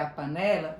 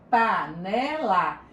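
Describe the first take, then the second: First: Said in the usual way. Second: Slow, syllables pulled apart. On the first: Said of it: "diferente do tradicional". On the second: Shown as a demonstration. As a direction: spell out Panela slowly, pa-ne-la. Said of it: "Que análise silábica?". (Panela bem devagar, sílaba por sílaba)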